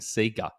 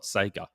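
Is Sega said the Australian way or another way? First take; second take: Australian; other. First: It uses the usual Australian pronunciation. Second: It uses a non-Australian pronunciation. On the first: This is how people locally grew up saying it. The speaker calls it right. "Australians were brought up saying Sega" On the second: This is how others insist it should be said. The speaker calls it wrong. "not Sega"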